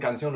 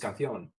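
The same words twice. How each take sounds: First: The c is said like an s. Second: The c is said like a th. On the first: "It wasn't" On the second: "with a Castilian accent"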